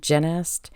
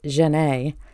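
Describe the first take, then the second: First: The name is said in an English way. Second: The name is said in a French way.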